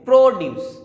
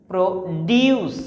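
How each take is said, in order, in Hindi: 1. ज़ोर पहले शब्दांश पर है। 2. ज़ोर दूसरे शब्दांश पर है। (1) "प्रो पर थोड़ा जोर डालेंगे" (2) "ड्यूस, इस पे स्ट्रेस डाल रहे हैं"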